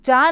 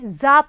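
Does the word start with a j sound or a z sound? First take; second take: j sound; z sound. First: It begins with a j sound. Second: It begins with a z sound. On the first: The speaker calls it wrong. "इसको हम जा नहीं पढ़ेंगे" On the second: The speaker calls it right. "जा पढ़ेंगे"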